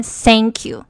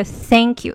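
First: "thank you" said as "sank you"; 常见错误读法. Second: "thank you" with a true th, tongue between teeth; 标准th音. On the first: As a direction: swap the th in "thank" for an s. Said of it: "有很多人念". ("thank" 的th错读成s) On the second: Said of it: "舌头必须要伸出去". ("thank" 咬舌发th音) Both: Shown as a demonstration.

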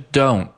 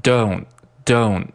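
First: Said in the usual way. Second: "don't" with the final t held back unreleased. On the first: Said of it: "这个T失去爆破". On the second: Shown as a demonstration. Teacher showing learners the dropped burst, unreleased t in "don't". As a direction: say "don't", stopping short of the t burst. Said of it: "这个T失去爆破，读成".

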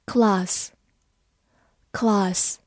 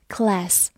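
First: Class with a British long "ah"; British "class", broad back vowel; British pronunciation. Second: Class with an American front "a" as in cat; American "class", flat front æ vowel; American pronunciation. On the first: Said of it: "美式发音也可以读作class". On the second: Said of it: "美式发音也可以读作". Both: Shown as a demonstration.

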